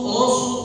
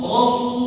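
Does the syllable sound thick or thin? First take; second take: thick; thick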